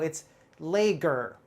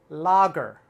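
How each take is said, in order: First: The first vowel is a long A sound. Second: The first vowel sounds like a short O. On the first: The speaker calls it wrong. "you might say, oh, it's lager" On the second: The speaker calls it right. "The A is not a long A here. It's more like a short O"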